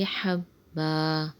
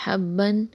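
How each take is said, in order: First: حَبًّا ending in a long -ba, no nun; حَبًّا with alif replacing the tanween; pause form. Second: حَبًّا ending in -ban, with tanween, the way it would be said when joining on; حَبًّا said as habban; حَبًّا with the nun of tanween. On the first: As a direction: stop on حَبًّا as habba. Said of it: "وقف میں پڑھیں گے حَبًّا". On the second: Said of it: "یہاں دو زبر ہے". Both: Shown as a demonstration.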